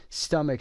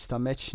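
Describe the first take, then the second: First: "stomach" ending in a hard k; k sound for ch. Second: "stomach" ending in ch as in match; wrong ch sound. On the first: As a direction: say "stomach" as STUH-mik. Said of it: "صدای که داریم در اینجا". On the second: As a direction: mispronounce "stomach" as stuh-match. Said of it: "سی اچ رو دقت داشته باشید". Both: Shown as a demonstration.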